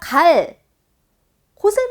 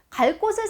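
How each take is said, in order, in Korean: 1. 곳의 자음은 끊어 읽을 때 평음이에요. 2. 곳의 자음은 이어서 말할 때 경음이에요. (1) "이러면 우리가 애사소리로 읽죠" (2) "연음해서 자연스럽게 읽을 때는 된소리가 난다"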